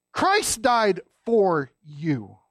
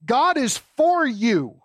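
First: Christ died for you, very slow, stress on Christ; slow emphatic declaration. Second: God is for you, slow and weighty, stress on God; slow emphatic declaration. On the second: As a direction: lay down God is for you slowly, each word weighed. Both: Shown as a demonstration. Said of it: "I want to say it out loud".

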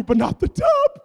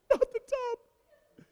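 First: Much higher, louder plea on tub; pleading shout. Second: Drawn-out lament. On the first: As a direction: beg it loudly. Pleading over his sanctuary. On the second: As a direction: stretch it out mournfully. Repeat, drawn out softly. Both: Retold or imitated.

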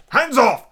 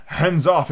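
First: High, loud shout; cried warning. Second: Said in the usual way. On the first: A narrator's reading. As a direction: shout a sudden warning to keep away. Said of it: "cried Silver, leaping back". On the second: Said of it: "said the other".

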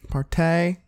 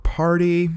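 First: "partay" higher, ending in a long AY; playful mispronunciation. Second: Said in the usual way. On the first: Pretend. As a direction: say "partay" as par-TAY, for fun. Playful re-saying of party.

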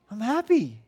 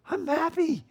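First: Emphatic, raised-pitch mock protest with a firm fall; forceful happiness. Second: Very high, strained mock-happy protest; insistent happiness. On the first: Father to crying daughter, forcefully insisting he's happy. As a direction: insist firmly that you are happy. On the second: Father to crying daughter, comically insisting he's happy. Happy dad sounding like yelling.

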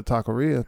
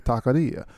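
First: Said in the usual way. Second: Taqueria with a tapped Spanish r; Spanish pronunciation. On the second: Shown as a demonstration. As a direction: say taqueria as tah-kah-DEE-ah, r tapped like a soft d. Repeats the word in Spanish pronunciation.

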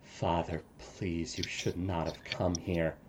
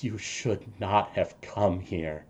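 First: Hushed, much softer pleading; tearful plea. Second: Softly crying, much quieter; grieving father whispering through tears; father mourning his son, quietly crying. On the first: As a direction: beg your father quietly through tears. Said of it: "with tears streaming down his face". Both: Acted.

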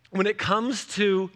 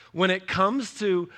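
Both takes have the same delivery.

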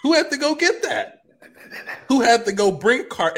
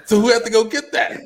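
First: High strained rhetorical question. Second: High voice cracking into a laugh; strained laughing question. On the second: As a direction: ask it half-laughing, near breaking. Repeated rhetorical question. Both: Acted.

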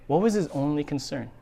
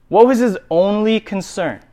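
First: Much softer, pointed question; hushed repeated question. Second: Said in the usual way. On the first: Shown as a demonstration. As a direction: let the question sink in quietly.

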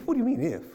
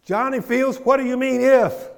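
First: Higher-pitched indignant challenge; retold upset. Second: High, loud indignant shout; shouted mock scolding, pitched way up; acted upset outburst. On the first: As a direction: act out upset disbelief without shouting. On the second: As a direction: build to a booming reprimand, as if calling someone out. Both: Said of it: "He got upset".

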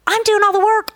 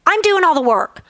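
First: Much higher, louder I'm doing all the work; emphatic repeat. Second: Said in the usual way. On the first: Retold or imitated. God insisting to the worried speaker, higher and louder. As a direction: lift doing high the second time.

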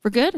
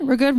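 First: "We're good?" with a rising question tune; questioning check. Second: "We're good." said as a firm statement; "We're good." confirmed, slightly higher; settled answer. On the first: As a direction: ask "We're good?" lifting at the end. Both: Shown as a demonstration.

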